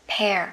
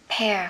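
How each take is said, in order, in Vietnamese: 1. Nguyên âm nghe giống 'air'. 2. Nguyên âm nghe giống 'air'.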